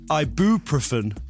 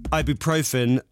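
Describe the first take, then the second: First: The stress falls on an unusual syllable. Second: The stress falls on the typical syllable. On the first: The speaker calls it wrong. "a lot of people say ibuprofen" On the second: The speaker calls it right. "like normal people"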